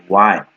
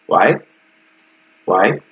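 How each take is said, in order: First: Why said with a falling tune; why, firmly down. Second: Why said with a rising tune, like a yes-no question; Why? with an upward lift. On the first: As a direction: let why drop at the end. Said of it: "It's downward intonation". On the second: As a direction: let Why go up at the end. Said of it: "that's like Japanese pronunciation". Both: Shown as a demonstration.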